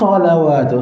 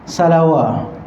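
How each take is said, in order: First: The first s is thick, tongue root raised. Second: The first s is thin, tongue root lowered. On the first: It is the proper word used in the prayer. The speaker calls it right. "sepatutnya kita baca" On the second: It sounds like the name of an ordinary person. The speaker calls it wrong. "Salawat tu kawan kita tu"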